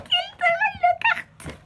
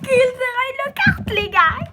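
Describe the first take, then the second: First: The name squealed much higher, slowly; Gilderoy Lockhart, stretched out in a very high excited squeal; overjoyed. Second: Shouted slow and high with delight; Gilderoy Lockhart, drawn out in a loud fangirl squeal; thrilled. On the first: Youtuber naming her favourite pop again, very high slow squeal. Repeats the name even more thrilled. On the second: Youtuber telling viewers her first pop, loud slow excited shout. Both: Real, not acted.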